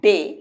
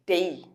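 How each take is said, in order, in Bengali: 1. স্বরধ্বনিটি একটি সমতল 'e' উচ্চারণ। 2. স্বরধ্বনিটি 'e' থেকে 'ee'-তে গড়িয়ে যায়। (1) "আমরা বলি ঠিকই ডে, অ্যাকচুয়ালি ডে না" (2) "ওটা ডেই"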